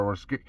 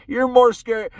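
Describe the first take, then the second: First: Said in the usual way. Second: More punched higher and louder; stress on more. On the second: Real, not acted. Telling viewers deer fear hunters, with more hit hard.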